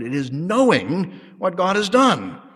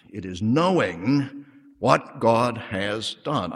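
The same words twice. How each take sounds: First: Higher, slow, knowing hit hard; stronger stress on knowing. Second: Slow, leaning on knowing; knowing drawn out and weighted; stress on knowing. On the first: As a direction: lift and punch knowing. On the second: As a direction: press the word knowing. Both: Shown as a demonstration. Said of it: "I stress that word".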